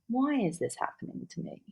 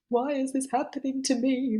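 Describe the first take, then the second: First: It is asked in a calm, curious tone. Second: It is asked in a distressed, self-pitying tone. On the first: The asker is trying to understand and figure it out. The speaker calls it right. "to become the philosopher" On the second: The asker feels like a victim of events. The speaker calls it wrong. "it's just about the tone in which you ask it"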